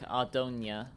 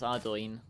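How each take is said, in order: First: The name ends with a 'nia' sound. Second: The name ends with an 'oin' sound. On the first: The speaker calls it wrong. "or like Ardonia" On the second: The speaker calls it right. "but no, it's Ardoin"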